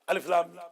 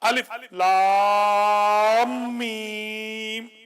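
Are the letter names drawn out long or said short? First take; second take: short; drawn out. First: The letter names are said short and separate. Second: Lam runs into mim with long drawn-out vowels. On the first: The speaker calls it wrong. "ये गलत है" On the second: The speaker calls it right. "लाम को मीम पे डालना है ... four टू six times ... इस तरीके से पढ़ना"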